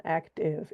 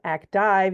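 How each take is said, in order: First: "active" ending in a short iv. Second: "active" ending like "dive", with a long I; wrong long I. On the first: Teacher correcting the long I, "active" with short iv. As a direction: say "active" as ak-tiv, short vowel in the last syllable. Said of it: "It's actually iv". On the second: Teacher showing what it is not, "active" with a long I. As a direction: say "active" as ak-tive, rhyming the end with five. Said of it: "like a long I". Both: Shown as a demonstration.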